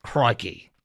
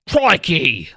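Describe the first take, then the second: First: "Crikey" said as /kʰɹɑki/, a quieter, tentative mock Australian; a hesitant, low-key go at the Australian accent; soft Australian try. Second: "Crikey" said as /kʰɹɔɪki/ with a broad Australian "oi", punchy and loud; a mock Australian "Crikey" thrown out firmly; Australian accent. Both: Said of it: "yeah, accent".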